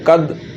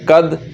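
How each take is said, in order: The two takes are said the same way.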